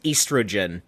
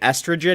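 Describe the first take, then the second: First: The word is said the British way. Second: The word is said the American way. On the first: "the British way of saying" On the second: "instead of saying"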